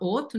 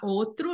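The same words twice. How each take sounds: First: The R after the T is dropped. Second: The R after the T is pronounced. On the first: "nós comemos o R de alguns sons" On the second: "em vez de falar outro"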